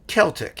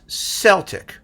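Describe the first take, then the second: First: The word begins with a hard K sound. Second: The word begins with a soft S sound. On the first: The speaker calls it wrong. "people pronounce it as Celtic, even though they won't spell it with a K" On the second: The speaker calls it right. "should be pronounced Celtic"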